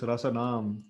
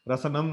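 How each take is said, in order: First: The first vowel is said long. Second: The first vowel is said short. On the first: The speaker calls it right. "This is Rasanam. So big A is there again" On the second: The speaker calls it wrong. "Rasanam nahi"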